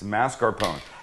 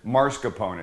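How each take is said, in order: First: The s sound comes before the r sound. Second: The r sound comes before the s sound. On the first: The speaker calls it right. "It's not. It's mascarpone" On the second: The speaker calls it wrong. "Everybody pronounces it or mispronounces it"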